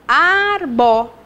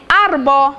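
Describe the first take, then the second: First: "arbo" slowly split into two syllables. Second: Said in the usual way. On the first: Shown as a demonstration. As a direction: draw out each syllable of "arbo" to count them. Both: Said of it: "duas sílabas".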